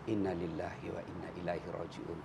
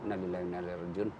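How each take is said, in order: First: It is said clearly and audibly. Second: It is mumbled quickly and unclearly.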